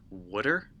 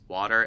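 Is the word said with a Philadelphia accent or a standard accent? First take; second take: Philadelphia; standard. First: It is said the Philadelphia way, like 'wooder'. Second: It is said in the speaker's usual accent.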